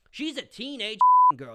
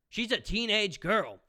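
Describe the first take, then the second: First: Repeated much louder and higher, hammering it home. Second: Said in the usual way. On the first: Real, not acted. Reviewer yelling at the critic Jenna, loud emphatic repeat. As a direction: shout it back at her the second time.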